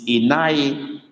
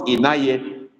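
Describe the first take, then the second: First: Inai said slowly, ending in a close i; slow careful Inai with the dotted i at the end; correct Igbo form. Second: Inaye with a final e; wrong form Inaye. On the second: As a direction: Inaye said with a plain e at the end. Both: Shown as a demonstration. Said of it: "It's not Inaye, it's Inai".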